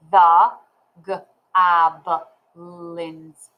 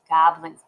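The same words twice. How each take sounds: First: "goblins" broken into guh, ah, buh, lins; sounding out. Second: Said in the usual way. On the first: Shown as a demonstration. Teacher modelling reading bigger words, sounded out. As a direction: read haltingly, sounding "goblins" out piece by piece. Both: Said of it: "I will finger spell".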